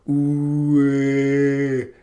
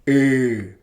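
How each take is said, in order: First: The vowel is said with rounded lips. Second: The vowel is said with spread lips. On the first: "a vowel that's normally rounded, like ooh" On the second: "and then unround your lips"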